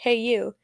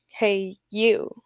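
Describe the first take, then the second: First: It sounds rude and curt. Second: It sounds warm and affectionate.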